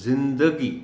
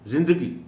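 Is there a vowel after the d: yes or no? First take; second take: yes; no. First: The d is followed by a short a. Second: The d has no vowel after it. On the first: The speaker calls it right. "दाल के ऊपर ज़बर को नुमायां करके पढ़ा जाना चाहिए" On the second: The speaker calls it wrong. "दाल के ऊपर जज़म के साथ पढ़ दिया जाता है ... ये गलत है"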